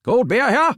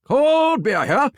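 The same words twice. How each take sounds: First: High, loud ballpark beer vendor call; stadium vendor hawking. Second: Slow, stretched, very high ballpark call; drawn-out stadium vendor hawking. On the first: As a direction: belt it out like selling beer in the stands. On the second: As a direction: stretch every word like a vendor in the stands. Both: Shown as a demonstration. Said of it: "Let's hear what you got".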